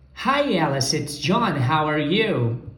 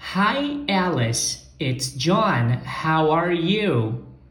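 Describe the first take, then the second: First: It is said a bit faster. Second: It is said slowly.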